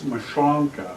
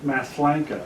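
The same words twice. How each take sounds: First: "Mashonka" with a SH sound and "onka", drawn out slowly; correct pronunciation. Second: "Maslanka" as spelt, with an S-L and "lank"; family's pronunciation. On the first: Speaker correcting the family's version of the surname, correct pronunciation. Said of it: "That's, that's the correct pronunciation". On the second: Speaker showing how the family says the surname, family's pronunciation. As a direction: say "Maslanka" with a plain S before the L. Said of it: "My family, everybody says Maslanka". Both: Shown as a demonstration.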